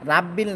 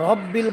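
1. র-এর মধ্যে একটি পাতলা, খোলা 'a' স্বরধ্বনি আছে। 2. র-এর মধ্যে একটি ভরাট, গোলাকার 'o' স্বরধ্বনি আছে। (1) "রাব্বিল না" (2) "শব্দটা হবে র"

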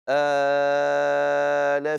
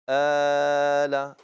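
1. المد الطويل يُمد ست حركات. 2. المد الطويل يُمد أربع حركات. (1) "والطول ... ست حركات" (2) "والتوسط ... أربع حركات"

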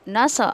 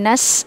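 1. आवाज़ एक उछलती हुई गूंज के साथ कटती है। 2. s एक लंबी, लगातार सीटी जैसी फुफकार है। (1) "कलकला से बचें। हाँ नस नस ऐसा नहीं पढ़ना आपको" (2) "सीन पर आपको सफ़ीर करते हुए नस ऐसे करना है"

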